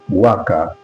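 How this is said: The word is said in a British accent. "we become worker in British English"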